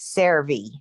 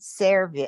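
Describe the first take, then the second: First: The final vowel sounds like 'ee'. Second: The final vowel sounds like 'eh'. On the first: The speaker calls it right. "and it's servi" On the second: The speaker calls it wrong. "because you said serve"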